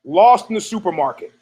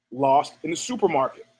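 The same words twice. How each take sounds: First: Said in the usual way. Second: Softer, lower echo of the title; quiet echo. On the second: Shown as a demonstration. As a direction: repeat the title softly, like an echo. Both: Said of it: "new category".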